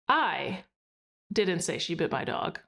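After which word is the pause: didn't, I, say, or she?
I. There is a pause after the word I.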